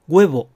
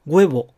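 No difference in how they are said.

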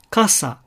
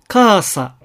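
First: The first syllable is only slightly lengthened. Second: The first syllable is drawn out very long. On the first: The speaker calls it right. "この程度が普通の発音になります" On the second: The speaker calls it wrong. "ちょっとそれは長すぎるわけですね"

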